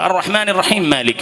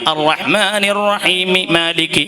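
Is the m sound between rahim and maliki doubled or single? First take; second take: single; doubled. First: The two m sounds merge into one. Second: Two separate m sounds are pronounced. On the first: The speaker calls it wrong. "ഒരു മീമേ വരുന്നുള്ളൂ ... അല്ല" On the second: The speaker calls it right. "രണ്ട് മീമായിട്ട് തന്നെ ഓതണം"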